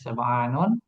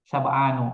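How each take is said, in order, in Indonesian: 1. Kata ini diakhiri dengan bunyi n. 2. Kata ini berakhir dengan vokal u biasa. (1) "Kalau munsharif dibacanya syaba'anun" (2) "kalau ghair munsharif dibacanya syaba'anu"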